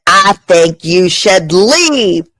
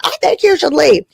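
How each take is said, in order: First: Slow, lightly put-on stiff delivery; stiff Republican. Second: Higher, lightly sing-song repeat; mock repeat. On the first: Comic retelling her date, mock prim stiff voice. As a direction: lay it down slowly like a stiff conservative. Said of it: "I said it like a straight Caucasian". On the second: Comic retelling her date, lighter higher repeat. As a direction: toss it off again, a touch higher. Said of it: "I said it like that".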